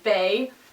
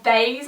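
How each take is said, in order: First: The name ends without any S sound. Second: The name ends with an audible S sound. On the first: "with like the silent S, so Bay" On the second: "or Bays, I'm not quite sure"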